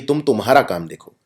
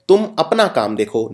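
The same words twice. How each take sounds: First: तुम्हारा lightly marked as the error; wrong version. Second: अपना lightly stressed as the right word; correct version. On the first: Teacher quoting the wrong sentence with a light mark on तुम्हारा. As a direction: point out तुम्हारा with a slight lean. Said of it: "ये दूसरी गलती है". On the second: Teacher giving the corrected sentence with a light stress on अपना. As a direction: lean gently on अपना. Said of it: "ना कि". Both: Shown as a demonstration.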